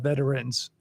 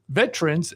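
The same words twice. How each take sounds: First: Veterans is said with three syllables. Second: Veterans is said with two syllables. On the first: This is a more formal, ceremonial form. "if you want to be more formal or ceremonial" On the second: This is the usual everyday form. "if it's just two syllables"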